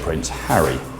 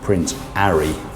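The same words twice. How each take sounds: First: The name starts with a clear H sound. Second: The name starts without an H sound.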